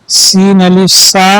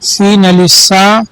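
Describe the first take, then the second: Both takes have the same delivery.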